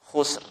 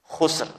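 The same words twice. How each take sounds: Both takes have the same delivery.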